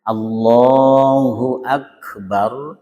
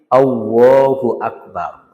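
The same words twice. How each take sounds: First: The L is a heavy tongue-tip L sound. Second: The L turns into a lip-rounded W sound. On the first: The speaker calls it right. "Mestinya Allah itu pakai lam" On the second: The speaker calls it wrong. "berarti pakai makhraj wawu"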